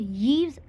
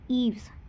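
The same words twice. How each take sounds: First: The name begins with a y sound. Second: The name begins with a plain vowel sound. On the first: The speaker calls it wrong. "It should not be pronounced as Yves as Y is standing in front of there" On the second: The speaker calls it right. "which is Yves"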